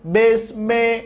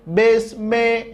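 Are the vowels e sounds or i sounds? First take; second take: e; e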